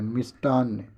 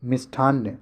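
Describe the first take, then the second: First: मिष्टान्न with a hard t; no puff of breath on ट in मिष्टान्न; correct unaspirated ट. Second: मिष्ठान्न with a puffed "tth"; breath after the t in मिष्ठान्न; wrong aspirated ठ. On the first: Teacher gives the right spelling, unaspirated ट in मिष्टान्न. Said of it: "ये वाला सही है". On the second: Teacher shows the wrong spelling, aspirated ठ in मिष्ठान्न. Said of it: "ये गलत है". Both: Shown as a demonstration.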